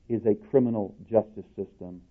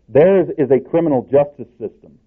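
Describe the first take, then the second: First: JUSTICE given the weight over criminal; stress on JUSTICE. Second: CRIMINAL punched louder than justice; emphatic CRIMINAL, justice left lighter; stress on CRIMINAL. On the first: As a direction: lean on the word justice. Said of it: "with the emphasis on the word". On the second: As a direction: lean hard on the word criminal. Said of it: "on the word criminal". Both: Shown as a demonstration.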